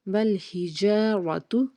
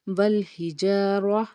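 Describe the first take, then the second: First: The word ends with a final short u vowel. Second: The final vowel is dropped at the stop. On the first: The reading continues without stopping. "ता पेश तू" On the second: The reader stops at this word. "अगर यहाँ पे हमने स्टॉप करना है तो ता को साकिन पढ़ेंगे"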